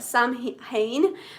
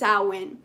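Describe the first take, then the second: First: The word is read out as it is spelled. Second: The word is said unlike its spelling. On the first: The speaker calls it wrong. "it sounds like Samhain" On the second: The speaker calls it right. "but it's pronounced Samhain"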